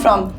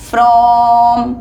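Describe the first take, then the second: First: The word is said quickly and hurriedly. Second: The word is said slowly and calmly. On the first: The speaker calls it wrong. "ऐसे नहीं" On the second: The speaker calls it right. "आराम से"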